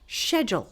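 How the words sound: The word is said the British way. "very strong British accent, and she would say schedule"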